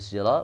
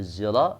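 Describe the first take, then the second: First: The first consonant is a voiceless s-like sound. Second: The first consonant is a voiced z-like sound. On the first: This is how local speakers read the letter. "boleh syira" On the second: This is how speakers elsewhere read the letter. "boleh zira"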